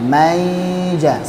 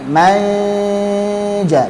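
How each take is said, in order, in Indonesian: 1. Bunyi mirip y menggantikan sengau sebelum j. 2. Bunyi sengau tersembunyi meluncur ke j. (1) "Seolah-olah kayak iya-nya, maija. Salah" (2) "man manja, bukan mai maija"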